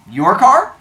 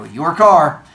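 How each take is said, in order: First: "Your car?" high and loud, rising at the end; questioning officer. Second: "Your car" loud, falling firmly on car; officer's verdict. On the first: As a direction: ask "Your car?" with a sharp lift on car. Officer checks whose car it is. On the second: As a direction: state "Your car" as settled fact, tune dropping. Officer then declares it his. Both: Retold or imitated.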